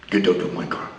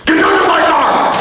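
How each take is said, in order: First: Much lower soft growl; quiet low order; low quiet command. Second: Higher and louder; louder yelled command; shouted order. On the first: Mad Dog ordering him out. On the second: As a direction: bark it out loud. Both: Retold or imitated.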